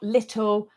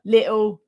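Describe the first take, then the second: First: "little" with the T pronounced; corrected "little", T sounded. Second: "little" with a glottal stop for the T; T-less "little" in the speaker's own accent; dropped T. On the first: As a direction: say "little" with a careful T in the middle. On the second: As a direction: say "little" as li'le. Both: Shown as a demonstration. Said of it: "say my T's".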